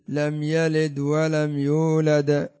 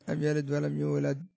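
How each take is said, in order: First: The final d sounds are released with a bounce. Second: The final d sounds are cut off abruptly. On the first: The speaker calls it right. "بوجود هذا الحكم التجويدي، حكم القلقلة" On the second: The speaker calls it wrong. "هكذا على الجزم والقطع"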